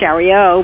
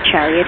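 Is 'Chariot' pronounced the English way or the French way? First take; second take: French; English. First: The word is said with a French pronunciation. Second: The word is said with an English pronunciation. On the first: "It's the French pronunciation of Chariot" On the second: "the English pronunciation would be Chariot"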